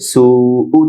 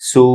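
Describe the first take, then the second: First: The word ends with an extra u vowel. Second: The word ends without the extra vowel. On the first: "উ হামজায় জজম হবে ওয়াকফ করলে" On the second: "উ হামজায় জজম হবে ওয়াকফ করলে"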